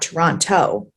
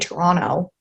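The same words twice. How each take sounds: First: The second t is clearly pronounced. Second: The second t is dropped. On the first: The speaker sounds like an outsider. The speaker calls it wrong. "not Toronto" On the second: The speaker sounds like someone from the area. The speaker calls it right. "I say Toronto"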